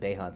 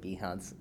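First: The first vowel is pronounced as an 'ay' sound. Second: The first vowel is not an 'ay' sound. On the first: "The little macron on the E makes an A sound in Latin, so I pronounce it Behance" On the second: "you pronounce it Behance"

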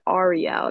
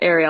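First: The name is not said like the mermaid's. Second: The name is said like the mermaid's. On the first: This is how the name's owner says it. The speaker calls it right. "I think she says it Ariel" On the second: This is how the mermaid's name is said. The speaker calls it wrong. "not Ariel, like the mermaid"

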